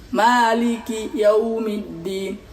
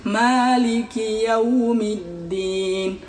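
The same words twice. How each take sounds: Both takes have the same delivery.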